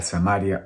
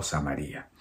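First: Samaria as "sa-MÁ-ria", stress on MA; stress on second A. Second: Samaria as "sa-ma-RÍ-a", stress on RI. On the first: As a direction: put the accent of Samaria on MA, not RI. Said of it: "se puede pronunciar Samaria o Samaria". (Samaria acentuada en MA) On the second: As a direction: split the ending of Samaria, leaning on the I. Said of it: "tiene el acento en la I". (Samaria con acento en la i) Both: Shown as a demonstration.

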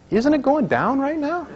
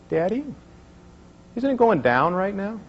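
First: Put-on much higher, slow, pleading child's question; insistent little girl. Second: Put-on higher, innocent little-girl question. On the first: Daughter pressing her dad again, in a much higher, slower child's voice. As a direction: drag it out like a small child who won't let it go. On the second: Daughter asking her dad about the chart, in a higher little-girl voice. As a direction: ask it like a small curious child.

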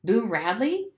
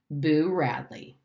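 First: "Boo Radley" higher with a rising end; "Boo Radley" as a higher-pitched query; puzzled question. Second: "Boo Radley" slow with a falling end; "Boo Radley" stretched out as a reveal; announcing statement. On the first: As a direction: ask "Boo Radley" back, pitch lifting. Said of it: "asked Dill". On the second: Boy announces the new game. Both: A narrator's reading.

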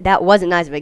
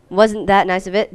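First: "wasn't" stressed, falling at the end; statement reading. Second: "wasn't that" posed as a question, rising at the end; question reading. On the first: Player rereads the game's line as a statement, stress on "wasn't". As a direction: state it firmly, punching "wasn't". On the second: Player reads the game's line as a question, rising end. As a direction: ask it, leaning on "that". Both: Shown as a demonstration. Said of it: "Get the correct grammar".

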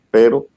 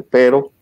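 First: Said in the usual way. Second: Higher, louder nagging "pero"; a hint of a nagging squirrel saying "pero"; doubting inner voice. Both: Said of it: "la ardillita esa que dice".

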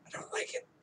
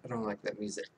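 First: Whispered aside, almost secret; a sudden hushed whisper. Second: Said in the usual way. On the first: Pretend. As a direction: breathe it out like a confession. Repeats the complaint in a whisper.

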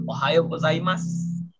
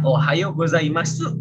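First: "Ohayo gozaimasu" ending in "mas"; silent u. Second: "Ohayo gozaimasu" slowly with the final u voiced; as written, full u. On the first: Teacher shows the reading, u dropped in "Ohayo gozaimasu". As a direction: drop the last u of "Ohayo gozaimasu". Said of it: "su-nya tuh nggak usah dibaca". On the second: Teacher reads the written form, full u in "Ohayo gozaimasu". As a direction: sound the whole "su" in "Ohayo gozaimasu". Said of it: "ini bacanya". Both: Shown as a demonstration.

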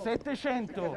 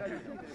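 First: Said in the usual way. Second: Whispered. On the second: Pretend. Whispered repeat of bid.

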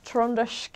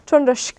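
First: Trondersk tried quietly and tentatively, like a guess; unsure pronunciation. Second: Trondersk said firmly and louder with a falling end; confirmed pronunciation. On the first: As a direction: test out the word Trondersk softly, unsure of it. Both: Shown as a demonstration. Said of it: "Is that how you say it?".

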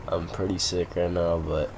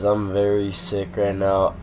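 First: Quieter, congested sick voice; stuffy nose. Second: Sick, congested voice; talking through a head cold; stuffy nose. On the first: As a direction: talk through a blocked nose. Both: Real, not acted. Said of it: "If you can't tell by my voice".

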